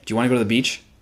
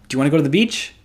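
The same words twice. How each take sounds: First: The pitch falls at the end. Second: The pitch rises at the end. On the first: The asker sounds confident and appealing. The speaker calls it right. "ask that exact question in downtalk" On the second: The asker sounds needy and seeks validation. The speaker calls it wrong. "Let's start with uptalk"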